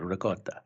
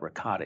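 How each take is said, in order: First: It is said the Italian-American way. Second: It is said the general American way.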